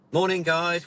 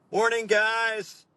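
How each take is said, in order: First: Higher-pitched chirpy instructor greeting; imitating an instructor opening a briefing. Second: High, slow mock American greeting; hammed-up, drawn-out American accent; ropey American accent. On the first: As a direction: greet a room of customers, voice lifted. Retold briefing, instructor greets customers. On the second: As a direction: put on a bad comedy mid-Atlantic accent. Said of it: "slightly ropey, like, mid-Atlantic accent".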